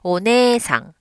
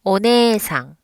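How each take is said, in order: No difference in how they are said.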